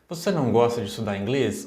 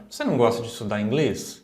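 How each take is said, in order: First: The question sounds interested. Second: The same.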